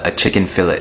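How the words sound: It is said with a South African accent.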